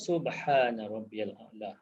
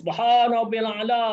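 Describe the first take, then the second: First: It is said slowly. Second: It is said fast.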